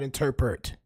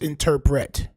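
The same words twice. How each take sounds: First: The last syllable sounds like the name 'Bert'. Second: The last syllable is said plainly as 'pret'. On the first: The speaker calls it wrong. "It's not interpret. Bert" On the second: The speaker calls it right. "It's interpret"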